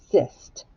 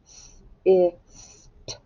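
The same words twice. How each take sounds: First: Said in the usual way. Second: "S-I-S-T" as separate letter sounds, s, short i, s, t; teacher segmenting "S-I-S-T" with gaps between the sounds; sounded out. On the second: Shown as a demonstration. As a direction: sound out "S-I-S-T" slowly, one sound at a time. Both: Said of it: "Now let's do sist".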